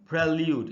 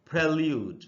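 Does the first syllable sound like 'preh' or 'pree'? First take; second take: preh; preh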